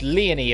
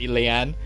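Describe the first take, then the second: First: The name is pronounced as Leonie. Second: The name is pronounced as Leanne. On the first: The speaker calls it right. "It's it's Leonie, apparently" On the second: The speaker calls it wrong. "I'd pronounce it Leanne"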